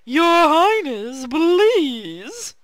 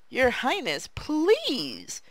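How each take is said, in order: First: It is said in a put-on character voice. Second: It is said in a normal voice.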